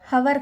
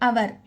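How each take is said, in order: First: The word starts with an audible h sound. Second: The word starts with a vowel, no h. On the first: The speaker calls it wrong. "ఆ హవర్ కాదు" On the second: The speaker calls it right. "But ఇక్కడ హెచ్ అనేది silent"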